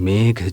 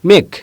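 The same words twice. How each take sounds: First: The word starts soft and ends deep and grave. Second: The word is said flatly, without softness or depth. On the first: It evokes a heavy cloud. The speaker calls it right. "কোমলতা থাকবে গাম্ভীর্য থাকবে" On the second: It does not feel like a cloud. The speaker calls it wrong. "যদি আমি বলতাম মেঘ তাহলে মেঘের মতো মনে হতো না"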